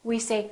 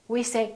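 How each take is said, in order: The two takes are said the same way.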